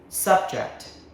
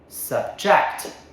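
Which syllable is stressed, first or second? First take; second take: first; second. First: The stress is on the first syllable. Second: The stress is on the second syllable. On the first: It is used as a noun. "First syllable" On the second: It is used as a verb. "Second syllable"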